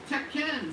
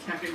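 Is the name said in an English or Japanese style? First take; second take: Japanese; English. First: It is said with a Japanese-style pronunciation. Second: It is said with an English-style pronunciation. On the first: This is how the game itself says it. The speaker calls it right. "in the game itself, they say it very differently" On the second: This is how the commercials said it. The speaker calls it wrong. "I've been saying Tekken because that's what all the commercials said"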